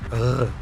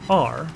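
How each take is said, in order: First: The R is a throaty French-style sound. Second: The R is a smooth English-style sound. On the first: "in French you say Ugh" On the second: "in English you say R"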